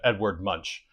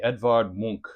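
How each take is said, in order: First: The name is said the American way. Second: The name is said the Norwegian way.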